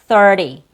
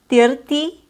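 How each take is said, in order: First: The vowel is a heavy 'er' sound. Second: The vowel is not an 'er' sound. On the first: The speaker calls it right. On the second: The speaker calls it wrong.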